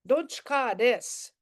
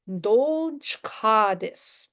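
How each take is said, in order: First: Said in the usual way. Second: Don't chka this, stretched slowly, word by word; slow it right down for the learner; very slow teaching demo. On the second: Shown as a demonstration. Teacher modelling the phrase for the student, very slow.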